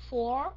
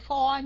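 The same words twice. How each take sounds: First: "for" closing on a clear R; correct R ending. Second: "for" with the R dropped; wrong ending. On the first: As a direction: finish "for" with the R sounded. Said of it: "mà là for". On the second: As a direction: show the mistake: "for" without its R. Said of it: "không phải for nha". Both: Shown as a demonstration.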